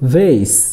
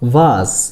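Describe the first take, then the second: First: The word is said in an American accent. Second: The word is said in a British accent. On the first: "American উচ্চারণ হলো ভেস" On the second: "British উচ্চারণ হলো ভাস"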